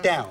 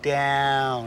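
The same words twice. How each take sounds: First: The word is said short and clipped. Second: The word is drawn out long. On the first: The speaker calls it wrong. "It's not" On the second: The speaker calls it right. "It's an elongated down. It's like down"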